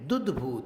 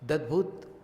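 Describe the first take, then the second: First: The first syllable has a 'u' vowel. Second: The first syllable has an 'a' vowel. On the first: The speaker calls it right. "दुद्भूत है" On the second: The speaker calls it wrong. "दद्भूत नहीं है"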